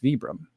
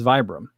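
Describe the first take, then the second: First: The first syllable sounds like 'vee'. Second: The first syllable sounds like 'vye'. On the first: The speaker calls it right. "I think it's Vibram, and it is Vibram" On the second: The speaker calls it wrong. "no one in the U S pronounces Vibram correctly. They call it, everyone says"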